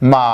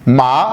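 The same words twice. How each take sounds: First: The pitch dips down, then rises. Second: The pitch rises upward. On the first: "तीसरी टोन है जो कि पहले नीचे की तरफ आएगी फिर ऊपर की तरफ जाएगी" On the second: "दूसरी टोन ऊपर की तरफ जाते हुए"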